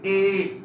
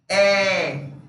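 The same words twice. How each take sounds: First: The vowel is closed, like Spanish e. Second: The vowel is open, with the mouth wider. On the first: "ese sonido de E, E, E es el primer sonido de la letra E" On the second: "El segundo es el sonido abierto"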